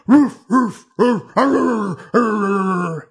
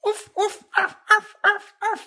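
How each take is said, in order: First: Loud gruff dog barks; barking dog. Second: High yipping little dog barks; yappy panting puppy. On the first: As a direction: bark like a bigger dog. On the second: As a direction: yip like a tiny excited puppy. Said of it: "you hear just kinda like this". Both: Acted.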